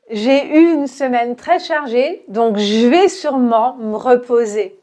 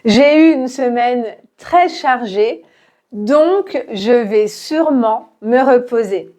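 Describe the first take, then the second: First: The sentence is very fast, dropping the vowel in me. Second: The sentence is said slowly with every vowel kept. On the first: "beaucoup plus vite. Donc, on va enlever le E de me" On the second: "répète lentement"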